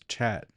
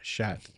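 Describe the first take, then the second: First: The word begins with a ch sound. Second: The word begins with an sh sound. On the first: The speaker calls it right. "Julio said it's chat" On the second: The speaker calls it wrong. "not shat"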